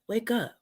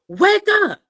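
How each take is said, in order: First: It is said quietly and subtly. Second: It is said loudest of all.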